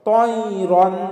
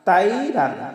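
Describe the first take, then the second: First: The first vowel is said with rounded lips. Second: The first vowel is said with spread lips. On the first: The speaker calls it right. "ত আমরা মুখটা একটু গোল করে উচ্চারণ করব" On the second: The speaker calls it wrong. "অনেকে বলি তাইরান তাইরান, আসলে এটা আমাদের ভুল হবে"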